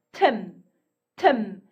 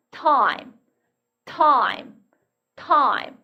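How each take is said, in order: First: Tim with a short "ih" vowel. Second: Time with I said as its letter name "eye"; long I. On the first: Teacher reading tim for students before magic E, short I. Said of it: "이렇게 발음하던". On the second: Teacher showing how magic E turns tim into time, long I. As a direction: open time into a full "eye" glide. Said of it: "이렇게 바뀌었죠". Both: Shown as a demonstration.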